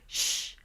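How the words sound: The shh sounds tense and squeezed. The speaker calls it wrong. "It may sound tense"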